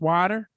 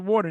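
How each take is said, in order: First: "water" as "wah-ter", open vowel; mimicked regional "water", said wah-ter; newly acquired pronunciation. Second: Said in the usual way. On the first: Shown as a demonstration. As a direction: swap the Brooklyn "waw" for "wah" in "water". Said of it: "you said, you said water". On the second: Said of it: "now it's water".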